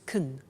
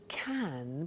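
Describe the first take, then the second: First: The vowel in can is reduced and weak. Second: The vowel in can is full and clear. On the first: "so can becomes can when we speak" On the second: "notice the pronunciation of can becomes"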